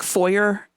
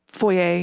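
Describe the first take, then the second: First: The word is said with an English pronunciation. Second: The word is said with a French pronunciation. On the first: The borrowed word is adapted by English speakers. "you say it wrong" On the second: The word is said as in its original language. "in French"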